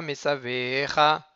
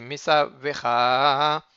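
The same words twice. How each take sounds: First: Mesavecha said the wrong way, at normal speed; wrong vowel. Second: Mesavecha slowed and drawn out, each syllable clear; correct reading. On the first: Teacher shows the mistaken Mesavecha, quick and careless. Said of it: "C'est pas Mesavecha". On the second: Teacher models the correct Mesavecha, slow and careful. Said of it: "c'est Mesavecha". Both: Shown as a demonstration.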